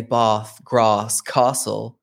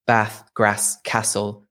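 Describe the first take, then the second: First: "Bath, Grass, Castle" as "bahth, grahss, kah-sel"; southern English long A. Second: "Bath, Grass, Castle" with the A of "cat"; lower, matter-of-fact short-A "Bath, Grass, Castle"; Midlands short A. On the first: Retold or imitated. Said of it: "south of England will say". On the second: Shown as a demonstration. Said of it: "everybody there definitely says".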